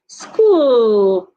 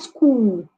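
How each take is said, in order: First: The final L has clear tongue-tip contact. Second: The final L lacks clear tongue-tip contact. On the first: The speaker calls it right. "Make sure the tip of your tongue touches the upper part of your teeth" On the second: The speaker calls it wrong.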